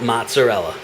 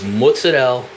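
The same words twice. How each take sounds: First: It is said with a standard American English pronunciation. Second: It is said with an Italian-American pronunciation. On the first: The speaker calls it wrong. "it's not mozzarella" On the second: The speaker calls it right. "That's the way you say it"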